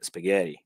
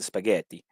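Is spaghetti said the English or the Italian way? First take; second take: English; Italian. First: It is said with English pronunciation. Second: It is said with Italian pronunciation. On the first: The speaker calls it right. "in English you say spaghetti" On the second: The speaker calls it wrong. "You don't say like in Italian spaghetti"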